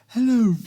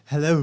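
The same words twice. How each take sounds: First: It is said in a put-on character voice. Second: It is said in the speaker's own natural voice. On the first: The speaker calls it right. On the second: The speaker calls it wrong.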